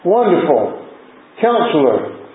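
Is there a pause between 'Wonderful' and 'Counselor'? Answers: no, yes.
yes. There is a pause after 'Wonderful'. Wonderful is a name on its own. The speaker calls it right. "Thankful Brother Tommy didn't read it that way, and I didn't read it that way"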